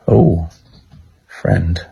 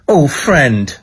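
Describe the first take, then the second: First: It is said in a flirty tone. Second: It is said in an angry tone.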